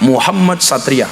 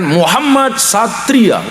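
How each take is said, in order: First: Said in the usual way. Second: Slow, drawn-out grand name; proud announcement. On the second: Acted. Preacher announcing a grand child's name, slowly and proudly.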